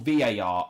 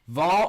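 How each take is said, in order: First: It is said as three separate letters. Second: It is said as one single syllable. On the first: "three letters" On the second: "One syllable"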